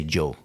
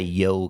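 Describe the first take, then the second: First: The y sound has a local regional pronunciation. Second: The y sound is the standard pronunciation. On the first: "They say yo. ... so they have a local accent" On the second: "they don't say yo quiero"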